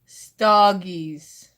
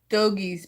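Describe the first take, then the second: First: The first vowel sounds like the vowel in log. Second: The first vowel is unlike the vowel in log. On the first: The speaker calls it right. "Like you would say log" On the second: The speaker calls it wrong. "It's not stogies"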